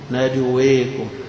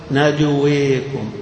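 Both takes have the same delivery.

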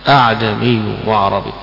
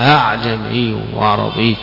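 First: Only one hamza is pronounced at the start. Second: The second hamza is softened, between hamza and alif. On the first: "بهمزة واحدة" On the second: "فالهمزة الثانية مسهلة، وإنما هي بين الهمزة والألف"

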